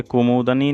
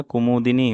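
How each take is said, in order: First: कुमुदनी with "da", not "di"; wrong pronunciation. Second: Said in the usual way. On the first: Shown as a demonstration. Teacher shows students the error, कुमुदनी without middle i. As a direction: say कुमुदनी as kumuda-ni. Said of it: "नहीं होता है". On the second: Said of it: "होता है".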